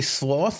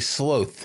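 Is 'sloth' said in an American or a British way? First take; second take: American; British. First: The word has the speaker's usual American vowel. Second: The word has a British vowel sound.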